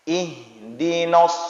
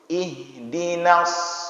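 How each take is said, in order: First: The n syllable is thick with a rounded o vowel. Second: The n syllable is thin with an open a vowel. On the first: The speaker calls it wrong. "itu rata-rata kita baca no" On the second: The speaker calls it right. "tipiskan dulu huruf nun"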